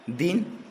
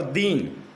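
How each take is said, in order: First: दिन with a short, quick "i"; short vowel. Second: दीन with a long, held "ee"; long vowel. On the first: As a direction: keep the vowel in दिन brief. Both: Shown as a demonstration. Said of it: "मात्रागत दोष जो पाए जाते हैं".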